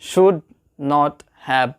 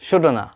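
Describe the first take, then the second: First: All three words are said fully and separately. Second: The words are merged into one reduced word.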